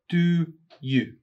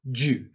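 First: Both words are said fully and separately. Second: The words blend into one syllable, like jew.

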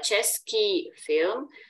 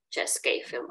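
First: The adjective ends in a long 'ee' sound. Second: The adjective ends in an 'ay' sound. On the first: This is grammatically correct standard speech. "це правильно граматично" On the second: This is casual street speech. "Можна на вулиці чи в розмовній мові чути чеський фільм, так? Так, якоби е і ї"

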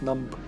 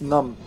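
First: The word ends with an audible b sound. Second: The word ends in m with a silent b. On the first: The speaker calls it wrong. "not numb" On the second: The speaker calls it right. "Because it's a silent B, it's numb"

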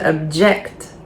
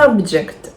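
First: The stress is on the second syllable. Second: The stress is on the first syllable. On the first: It is a verb. "Дієслова, наголос на другий склад" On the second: It is a noun. "Іменник, наголос на перший склад"

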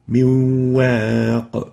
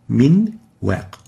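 First: The n merges into a doubled nasalized w. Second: The n is pronounced clearly before the w. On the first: The speaker calls it right. "we merge the noon into the waw with the ghunnah being maintained" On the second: The speaker calls it wrong. "instead of"

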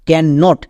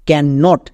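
First: It is said as two separate words. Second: The same.

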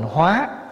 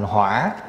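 First: The syllable has a rising tone. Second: The syllable has a dipping tone. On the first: It means to transform. "nếu bỏ dấu sắc vô là thành hóa" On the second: It means fire. "lại đi để dấu hỏi vô, thành hỏa là lửa"

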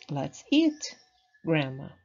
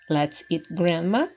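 First: There is a pause before Grandma. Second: It runs on with no pause before Grandma.

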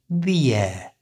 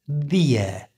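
No difference in how they are said.

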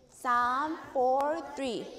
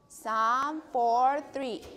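The two takes are said the same way.

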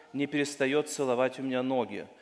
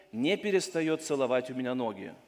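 No difference in how they are said.

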